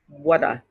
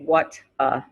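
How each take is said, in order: First: The two words run together as one word. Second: The two words are said separately, not linked. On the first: The speaker calls it right. "We say what, whata" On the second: The speaker calls it wrong. "we don't say what a"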